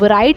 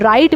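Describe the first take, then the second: First: The word starts with an audible w sound. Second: The word starts with an r, no w. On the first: The speaker calls it wrong. "इसको हम राइट नहीं बोलते" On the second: The speaker calls it right. "इसको हम राइट बोलते हैं"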